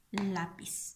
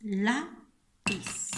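First: Said in the usual way. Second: "Lápiz" split into lá, long pause, piz; syllable by syllable. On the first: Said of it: "Y ponemos la palabra". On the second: Shown as a demonstration. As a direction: sound out "Lápiz" slowly in two separate syllables. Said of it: "el acento".

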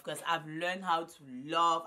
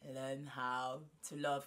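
First: Louder, punch "love" firmly; emphatic repeat. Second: Slow teaching line. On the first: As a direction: declare it proudly, a bit slower. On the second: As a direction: spell it out slowly for them to repeat. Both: Shown as a demonstration. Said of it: "Repeat after me".

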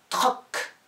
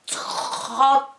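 First: "Troc" short and loud, final K set apart; short dictation. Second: "Troc" with a very long R, detached final K; drawn-out dictation. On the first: Teacher dictating the first syllable, short and loud. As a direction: say "Troc" briefly, then release the C. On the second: Teacher dictating the first syllable, loud and greatly stretched. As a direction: stretch "Troc" high and loud, releasing the C late. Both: Shown as a demonstration. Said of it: "des dictées de syllabes".

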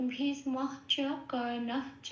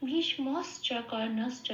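First: Breathy h before the final "চ" in "ভীষ্মশ্চ, কর্ণশ্চ"; visarga pronunciation. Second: "শ্চ" as s-cha in "ভীষ্মশ্চ, কর্ণশ্চ"; sibilant for visarga. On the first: Teacher showing students the unchanted form, visarga h before "চ" in "ভীষ্মশ্চ, কর্ণশ্চ". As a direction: say "ভীষ্মশ্চ, কর্ণশ্চ" as bhishmah-cha, karnah-cha. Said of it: "এই বিসর্গটাকে নিয়ে বলি না". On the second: Teacher showing the chanting form, sibilant before "চ" in "ভীষ্মশ্চ, কর্ণশ্চ". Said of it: "নিয়ে বলি". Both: Shown as a demonstration.

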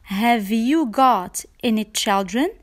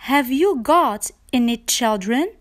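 The two takes are said the same way.

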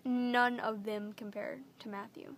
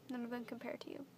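First: Louder and slower, every word of "None of them compare to Matthew" pressed firmly; emphatic declaration. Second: "None of them compare to you" said softer and gently, tune rising on "them"; softer to him. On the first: Telling the viewers firmly that no one matches her boyfriend. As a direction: hit "None" hard and lean into each word. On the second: Turning from the camera to speak softly to her boyfriend. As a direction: drop the volume and say it tenderly to him. Turns to address boyfriend directly. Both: Real, not acted.

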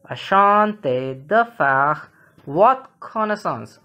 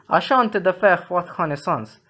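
First: Slow, spaced-out French for learners; measured teacher's repeat, drawn out; slow model reading. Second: Said in the usual way. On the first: Shown as a demonstration. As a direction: say it slowly, phrase by phrase. Teacher repeats phrase slowly for learners.

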